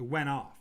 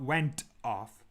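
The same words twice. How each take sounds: First: The two words are said quickly and joined. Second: The two words are said slowly and separately. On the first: The speaker calls it right. "that's a very natural way and a very fast way of pronouncing it" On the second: The speaker calls it wrong. "Not went off"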